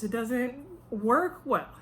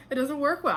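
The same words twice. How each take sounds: First: "It doesn't work well" spoken slowly, weight on "work"; slow emphatic. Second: "It doesn't work well" said higher, "well" falling hard; higher firmer repeat. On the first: Advising men watching, slow firm emphasis. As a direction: lay it down slowly. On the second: Advising men watching, higher emphatic repeat. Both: Shown as a demonstration.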